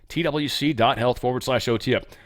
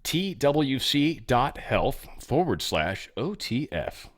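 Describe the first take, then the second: First: It is said quickly. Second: It is said slowly. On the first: The speaker calls it wrong. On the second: The speaker calls it right.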